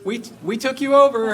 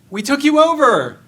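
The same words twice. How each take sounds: First: High, loud boastful crow of a conqueror; hammed-up gloat, pitched well up and loud; mock proud announcement. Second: Much higher and louder, hammed-up outraged cry; mock indignant shout. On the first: Retelling War and Peace, Napoleon's army gloats to Moscow, mock proud and high. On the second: Napoleon's army shouting at empty Moscow, mock indignant and loud. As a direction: yell it again like an ignored conqueror. Repeated boast, nobody answers.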